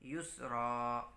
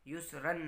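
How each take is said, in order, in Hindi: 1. यह शब्द लंबे 'a' स्वर पर ख़त्म होता है। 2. यह शब्द 'n' की आवाज़ पर ख़त्म होता है। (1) "दो ज़बर की जगह एक ज़बर पढ़ेंगे और उसके साथ अलिफ को पढ़ेंगे" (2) "युस्रन नहीं पढ़ेंगे"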